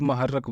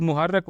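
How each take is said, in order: First: "महर्रक" with a short a after the m; variant pronunciation. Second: "मुहर्रक" with a short u after the m; variant pronunciation. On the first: Teacher showing learners how other people say it, variant pronunciation. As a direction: say "महर्रक", opening on ma. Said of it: "कुछ लोग महर्रक बोलते हैं". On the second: Teacher showing learners how some people say it, variant pronunciation. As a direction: say "मुहर्रक", opening on mu. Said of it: "कुछ लोग मुहर्रक बोलते हैं". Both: Shown as a demonstration.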